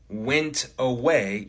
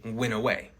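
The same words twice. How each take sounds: First: The T in went is pronounced. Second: The T in went is dropped. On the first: "Instead of saying" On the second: "you might say"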